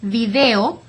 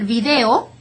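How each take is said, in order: No difference in how they are said.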